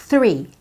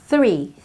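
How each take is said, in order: No difference in how they are said.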